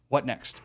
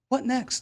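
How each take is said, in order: First: The pitch falls at the end. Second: The pitch rises at the end. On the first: It is a direct command. The speaker calls it right. "It's actually a direct command" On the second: It sounds passive and seeks rapport. The speaker calls it wrong. "not a what next? ... I'm not like doing it in an upward inflecting tonality"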